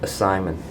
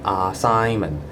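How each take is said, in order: First: The first vowel is a weak, reduced schwa. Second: The first vowel is a full, open 'ah'. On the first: The speaker calls it right. "the A is spoken with schwa sound" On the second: The speaker calls it wrong. "Hong Kongers tend to speak with ah sound at the front"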